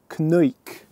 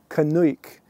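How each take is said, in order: The two takes are said the same way.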